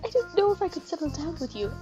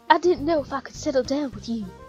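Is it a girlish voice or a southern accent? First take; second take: girlish voice; southern accent. First: It is said in a girlish voice. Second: It is said in a put-on southern accent.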